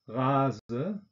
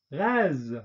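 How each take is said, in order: First: 'Rase' said the German way, with a final schwa, ʁazə; German 'Rase' with a trailing schwa; German-style. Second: 'rase.' said the French way, ʁaz with a released voiced z; French 'rase.' with no schwa. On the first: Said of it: "deutsche Aussprache ... Schwarlaut". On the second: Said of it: "französischen Aussprache mit Detente". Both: Shown as a demonstration.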